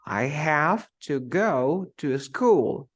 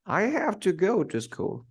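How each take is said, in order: First: Slow, with HAVE, GO and SCHOOL drawn out; stressed content words. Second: Higher and quicker, peak on HAVE; stressed content words. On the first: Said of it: "So you say". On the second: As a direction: punch have, let "to school" fall away. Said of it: "it sounds different". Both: Shown as a demonstration.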